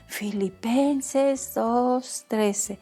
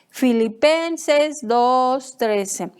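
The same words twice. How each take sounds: First: It is said softly and quietly. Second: It is said loudly and forcefully. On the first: "ahora lo vamos a decir bajito" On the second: "lo vamos a leer fuertemente"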